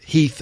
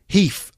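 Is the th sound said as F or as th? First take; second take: th; F. First: The th sound is kept as th. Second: The th sound is replaced by an F. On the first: "instead of Heath" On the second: "I'm going to say these in with F"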